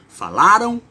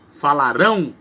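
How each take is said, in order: First: The stress falls on the second-to-last syllable. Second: The stress falls on the last syllable. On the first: It refers to the past. "Um é uma paroxítona" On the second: It refers to the future. "o outro é uma oxítona"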